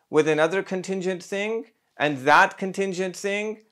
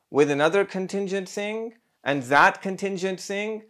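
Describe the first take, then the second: No difference in how they are said.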